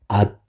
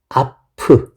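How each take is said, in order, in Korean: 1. 마지막 p는 모음 없이 닫혀요. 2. 마지막 p는 모음과 함께 풀려 나와요. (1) "앞 이렇게 비읍으로 읽게 되죠" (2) "아프 이렇게 안 읽죠?"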